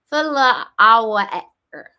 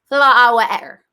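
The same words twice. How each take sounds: First: The sounds are said slowly and separately. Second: The sounds are said quickly in a run.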